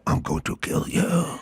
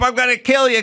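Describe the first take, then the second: First: It is said in a serious, menacing tone. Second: It is said in a playful, exaggerated tone.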